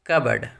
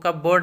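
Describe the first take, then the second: First: The p is silent, with a short 'bird' ending. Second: The p is sounded, with a full 'board' ending. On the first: The speaker calls it right. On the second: The speaker calls it wrong.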